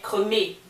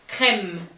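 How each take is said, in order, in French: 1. Le mot se termine par une voyelle prononcée. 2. Le mot se termine par un son de consonne. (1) "ça donnerait cremé" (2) "J'ai dit crème"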